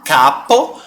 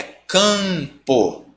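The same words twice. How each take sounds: First: CAPO with an open oral A; CAPO, first vowel purely through the mouth. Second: CAMPO with a long nasal A; slow, stretched nasal CAMPO; nasal vowel. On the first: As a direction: say CAPO with no nasality. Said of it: "Em vez de você falar capo". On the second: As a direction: bring the A of CAMPO through the nose. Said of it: "trazendo pro nariz". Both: Shown as a demonstration.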